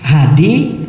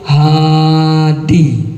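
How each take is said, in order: First: The first vowel is short. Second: The first vowel is long. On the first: An animal that is slaughtered as an offering. The speaker calls it wrong. "pakai H, H A D, nggak bagus tuh artinya" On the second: The one who gives guidance. The speaker calls it right. "Kalau mau bagus A-nya dua"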